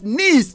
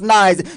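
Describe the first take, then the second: First: It is pronounced the French way. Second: It is pronounced like the English word. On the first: The speaker calls it right. "It's a French name and it's pronounced as Nice" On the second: The speaker calls it wrong. "not nice"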